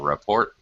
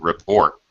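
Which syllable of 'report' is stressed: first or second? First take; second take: first; second. First: The stress is on the first syllable. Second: The stress is on the second syllable. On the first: The word is used as a noun. "when it's a noun, it's a report. we stress the first syllable when it's a noun" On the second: The word is used as a verb. "If it's a verb, then it's he needed to report. the second syllable when it's a verb"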